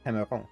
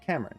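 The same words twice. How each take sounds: First: The name has a French pronunciation. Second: The name has an English pronunciation. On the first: "In French, it's" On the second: "In English, we say his name"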